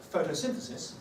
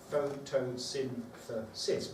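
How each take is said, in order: First: Said in the usual way. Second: "photosynthesis" slowly split into five syllables. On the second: Shown as a demonstration. Teacher counting syllables, "photosynthesis" broken up slowly. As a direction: count out each beat of "photosynthesis". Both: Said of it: "tell you how many syllables".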